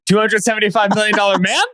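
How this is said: The voice rises at the end like a question. The claim is now in doubt.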